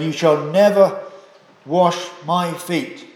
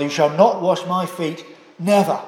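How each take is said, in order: First: Never stressed, slow on wash my feet; emphatic refusal. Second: Not stressed, never tacked on; double negative stress. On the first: Preacher voicing Peter's refusal, emphatic. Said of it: "He expresses himself very emphatically". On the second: Preacher voicing Peter's double negative, emphatic. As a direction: hit not, then add never. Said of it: "double negative to emphasise". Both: Shown as a demonstration.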